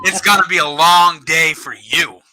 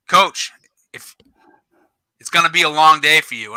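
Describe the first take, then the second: First: Higher-pitched, emphatic mock comeback; defiant retort. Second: Measured warning with pauses, lightly acted; retold ref's warning. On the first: Coach turning the ref's warning back on him, defiant retort. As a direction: throw the warning back, leaning on each word. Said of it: "And I'm like, "No, no, sir". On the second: Ref warning the coach on the field, retold warning. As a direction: imitate a ref cautioning a coach. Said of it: "he goes".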